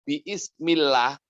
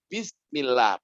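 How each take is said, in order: First: An extra vowel is sounded between b and ismillah. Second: The b runs straight into the word with no vowel. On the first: The speaker calls it wrong. "nggak boleh" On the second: The speaker calls it right. "harus bismillah, berarti hamzahnya gugur"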